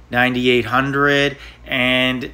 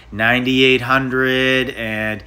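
Both takes have the same delivery.

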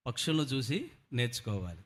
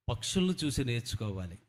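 Both takes have the same delivery.

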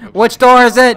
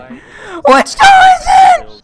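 First: Urgent shout. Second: Very high, loud and slow; panicked drawn-out shout. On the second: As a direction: stretch it into a desperate shout. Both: Real, not acted. Panic in chase.

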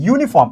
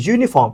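First: Said in the usual way. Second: ইউনিফর্ম begun with a soft buzzed "zh"; soft z-like onset. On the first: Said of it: "এখানেও কি ইউনিফর্ম". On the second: Shown as a demonstration. Teacher applies the rule to uniform, ইউনিফর্ম with z-like onset. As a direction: put a z-glide before the u in ইউনিফর্ম. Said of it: "জের মতো".

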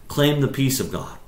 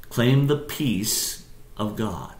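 First: Said in the usual way. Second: "Claim the peace of God" stretched out at half speed; deliberate, drawn-out "Claim the peace of God"; slow emphasis. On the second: Shown as a demonstration. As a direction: say "Claim the peace of God" slowly, letting each part sink in. Point repeated slowly for emphasis.

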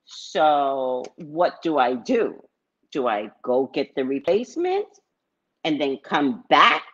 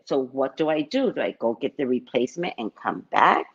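First: Not how it was said. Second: Said in the usual way. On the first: Retold or imitated. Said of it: "I didn't say it like that". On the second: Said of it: "No, I said".

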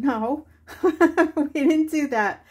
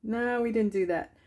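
First: Higher and louder, laughing through it; laughing reply. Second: Said in the usual way. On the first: Retold or imitated. Telling friend Paula no, laughing through the answer. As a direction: laugh out the denial. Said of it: "And I said".

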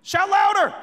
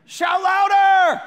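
First: High, loud taunt; taunting shout. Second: Drawn-out high holler; bored heckling shout. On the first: A narrator's reading. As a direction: read it as a punchy jeer. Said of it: "Elijah began to taunt them". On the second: Acted. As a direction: heckle loudly from far across the field. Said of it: "He gets bored".

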